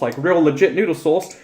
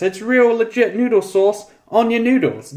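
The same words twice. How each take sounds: First: Said in the usual way. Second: High, slow, thrilled over the real sauce; excited. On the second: Acted. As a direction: stretch out real legit noodle sauce in delight. Excited repeat of the praise.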